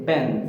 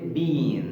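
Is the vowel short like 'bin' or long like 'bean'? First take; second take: short; long. First: It is said with a short vowel, like bin. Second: It is said with a long vowel, like bean.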